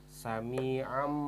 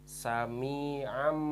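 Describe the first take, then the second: No difference in how they are said.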